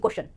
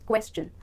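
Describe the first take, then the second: First: The ending is said with a 'shun' sound. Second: The ending is said with a 'chun' sound. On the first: The speaker calls it wrong. "ना कि क्वेश्चन" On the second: The speaker calls it right. "ये शन नहीं बल्कि चन sound produce करेगा"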